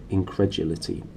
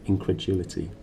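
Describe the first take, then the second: No difference in how they are said.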